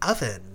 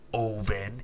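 First: The word has an American-style pronunciation. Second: The word has a Filipino-accented pronunciation. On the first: The speaker calls it right. "it's oven" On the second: The speaker calls it wrong. "it's not oven"

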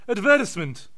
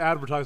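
First: It is said with a British pronunciation. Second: It is said with an American pronunciation. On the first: "They go" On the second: "British people, they don't say advertisement"

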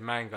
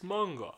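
First: It is said with a plain British pronunciation. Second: It is said with a Japanese-style pronunciation.

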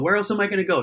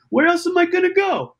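First: It is said in the speaker's own normal accent. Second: It is said in a put-on New York accent.

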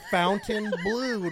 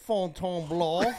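First: The name is said in an Americanized way. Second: The name is said in a French way. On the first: This is how Americans without culture say it. "we're ignorant American pigs with no culture, and we say Fountainebleau" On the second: This is the cultured way to say it. "not Fontainebleau"

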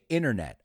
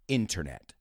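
First: The middle T sound is dropped. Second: The middle T sound is clearly pronounced.

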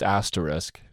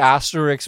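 First: The word ends with an sk sound. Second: The word ends with a ks sound. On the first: The speaker calls it right. "but I know it's asterisk" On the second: The speaker calls it wrong. "Sometimes I say asterisk by accident"

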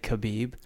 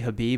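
First: The name begins with a K sound. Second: The name begins with an H sound. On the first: "I just pronounced the K" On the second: "you say Habib"

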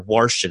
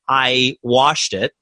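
First: It is said in a Baltimore accent. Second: It is said in a standard accent.

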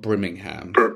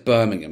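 First: The name is pronounced the American way. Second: The name is pronounced the English way. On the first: This is the city in Alabama. The speaker calls it wrong. "not Birmingham" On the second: This is the city in England. The speaker calls it right. "first it's Birmingham"

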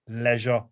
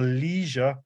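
First: It is said in a British accent. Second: It is said in an American accent.

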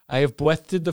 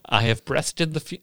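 First: It is read in a put-on character voice. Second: It is read in the reader's normal voice. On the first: The speaker calls it right. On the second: The speaker calls it wrong.

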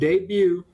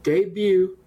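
Both takes have the same delivery.

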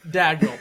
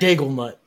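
First: The name is said with two syllables. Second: The name is said with three syllables. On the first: The speaker calls it right. "It is Mark Dagnault" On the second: The speaker calls it wrong. "my brain is permanently engraved with Dagelnut"

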